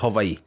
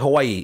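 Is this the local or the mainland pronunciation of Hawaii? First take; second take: local; mainland. First: It is said the way locals say it. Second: It is said the common mainland way. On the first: This is how people from there say it. "If you're from Hawaii, they say Hawaii" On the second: This is not how people from there say it. "they don't say Hawaii"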